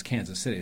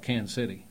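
First: Said in the usual way. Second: "Kansas City" said fast and run together, local style; local pronunciation. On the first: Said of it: "Kansas City-ese don't refer to our fair city as Kansas City". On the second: Shown as a demonstration. Dialect coach showing locals' Kansas City, quick and slurred. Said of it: "people that speak Kansas City-ese".

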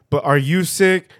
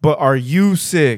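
First: Higher, louder pushy asking; louder, higher insistent ask; insistent question. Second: Slow, loud, pushy asking; slow, louder insistent ask; slow insistent question. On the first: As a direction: press the question harder. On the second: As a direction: drag it out and press hard. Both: Retold or imitated. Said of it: "insisting again".

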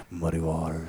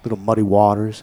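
First: Low, quiet gravelly bluesman voice; muddy voice. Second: Said in the usual way. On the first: Shown as a demonstration. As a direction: growl [name] low and soft. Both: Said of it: "I'm gonna say it like that".

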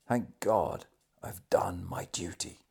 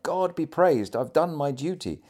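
First: Hushed last words, sinking into a whisper; whispered thanks of a dying man. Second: High, raised exclamation of thanks; lifted, emphatic dying man's exclamation; exclaiming. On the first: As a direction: let the voice fade away to breath. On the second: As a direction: cry it out in fervent relief. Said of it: "He often exclaimed". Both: A narrator's reading.

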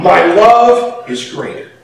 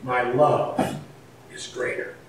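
First: God's thought. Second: Softer, barely voiced repeat; near-whispered echo. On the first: Retold or imitated. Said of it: "but he thought". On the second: Shown as a demonstration. Preacher repeating God's words to the congregation, hushed. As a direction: let it fall to a hush.

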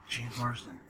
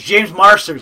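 First: Marsden said as MARZ-den, with no t and no r-ending; the mistaken name Marsden, plain MARZ-den; wrong name. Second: Marsters said as MARS-terz, with a clear t and r-ending; the corrected Marsters, stressed a little louder; corrected name. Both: Real, not acted. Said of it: "but it's Marsters".

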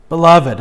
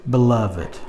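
First: Beloved said louder, weighty fall; stress on Beloved. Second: Said in the usual way. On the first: Shown as a demonstration. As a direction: lean hard on Beloved. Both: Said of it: "don't pass up that next word".

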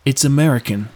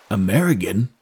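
First: Said in the usual way. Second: Puzzled sailor. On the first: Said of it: "replied Drew". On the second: Acted. Sailor baffled by an unknown country, puzzled. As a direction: repeat AMERICAN as a foreign word, rising at the end.

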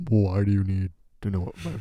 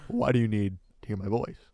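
First: Lightly hammed-up voice-memo voice; put-on voice. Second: Said in the usual way. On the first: Recording a voice memo for a suspected scammer, put-on voice. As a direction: ham it up a little after clearing the throat. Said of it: "why'd you do it like that". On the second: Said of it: "I didn't send it like that".

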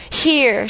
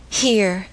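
First: Insist, piercing but not loud; shrill distinct here. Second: Said in the usual way. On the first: A narrator's reading. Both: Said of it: "making her voice sound shrill".

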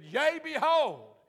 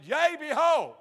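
First: High, loud and slow; slow loud proclamation. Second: High, loud proclamation; loud prophetic call. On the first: Teen repeating his prophetic opening to the hushed church, loud and slow. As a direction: stretch out a bold prophecy. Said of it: "no one had ever seen me that vocal before". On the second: Teenager bursting out prophesying in church, loud and high. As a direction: boom it out like a prophet. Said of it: "much of my pastor's shock". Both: Retold or imitated.

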